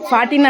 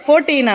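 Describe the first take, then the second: First: The first syllable sounds like 'far'. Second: The first syllable sounds like 'four'. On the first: The speaker calls it wrong. "ఫార్టీన్ అనకూడదు" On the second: The speaker calls it right. "ఫోర్టీన్ అనాల"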